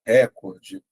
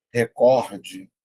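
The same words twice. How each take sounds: First: "recorde" said as RÉ-cor-de, first syllable stressed. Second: "recorde" said as re-COR-de, middle syllable stressed; stress on second syllable. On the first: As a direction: hit the RE at the start of "recorde". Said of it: "costumam pronunciar". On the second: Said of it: "fica assim". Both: Shown as a demonstration.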